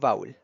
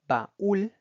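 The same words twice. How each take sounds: First: The vowels merge into one syllable. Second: The vowels are split into two syllables. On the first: The speaker calls it wrong. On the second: The speaker calls it right. "se utiliza un hiato"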